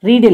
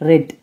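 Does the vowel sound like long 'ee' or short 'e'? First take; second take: long ee; short e. First: The vowel is a long 'ee' sound. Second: The vowel is a short 'e' sound. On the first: The speaker calls it wrong. "ரீட் இல்ல" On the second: The speaker calls it right. "அதோட உச்சரிப்பு மட்டும் மாறும்"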